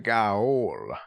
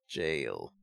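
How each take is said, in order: First: The word begins with a hard G sound. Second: The word begins with a soft J sound. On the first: "But I'm still gonna pronounce it Gaol" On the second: "Sammy was saying that you pronounce this jail"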